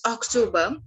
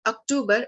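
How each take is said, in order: First: October said "ok-TO-ba"; German pronunciation. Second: Said in the usual way. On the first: Shown as a demonstration. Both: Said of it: "month's name in German".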